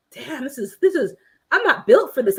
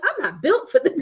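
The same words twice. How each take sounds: First: High, exasperated giving up; mock despair. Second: High, laughing through the words; laughing defeat. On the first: Viewer acting out giving up on hammering, exasperated. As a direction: groan it like the job beat you. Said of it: "you're like". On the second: Retold or imitated. Viewer laughing at herself for failing to hammer. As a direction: laugh as you admit defeat. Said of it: "and I'm like".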